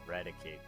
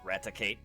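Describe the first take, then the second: First: The middle consonant is a D sound. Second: The middle consonant is a T sound. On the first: "I pronounce his name with a D" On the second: "I don't pronounce the T like Raticate"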